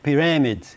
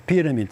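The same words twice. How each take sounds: First: The stress falls on an unexpected syllable. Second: The stress falls on the expected syllable. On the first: The speaker calls it wrong. "dá acento em outro lugar" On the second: The speaker calls it right. "fica o acento correto, a sílaba tônica correta"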